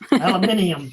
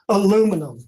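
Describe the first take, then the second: First: It has five syllables, British style. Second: It has four syllables, American style.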